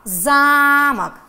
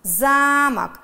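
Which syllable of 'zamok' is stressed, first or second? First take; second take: first; first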